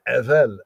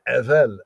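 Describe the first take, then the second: First: The middle consonant is a v sound. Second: The same.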